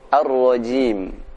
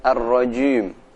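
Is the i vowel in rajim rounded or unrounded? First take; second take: unrounded; rounded. First: The i vowel is said with unrounded lips. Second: The i vowel is said with rounded lips. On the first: The speaker calls it right. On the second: The speaker calls it wrong.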